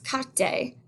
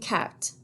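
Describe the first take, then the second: First: A vowel is sounded after the final T. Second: No vowel is sounded after the final T. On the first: The speaker calls it wrong. "people sometimes pronounce carte, and again, that's not correct" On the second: The speaker calls it right. "That's a silent E at the end. So we say une carte"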